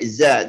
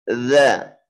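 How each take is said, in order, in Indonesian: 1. Konsonan ini dibuat dengan lidah ditarik ke belakang. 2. Konsonan ini dibuat dengan lidah di antara gigi. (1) "Jangan sampai za, jangan di belakang" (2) "Ujung lidah dikeluarin sedikit"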